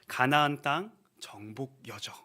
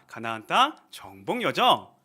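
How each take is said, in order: First: The phrase is said plainly, without added accents. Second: The phrase is said with strong, punchy accents.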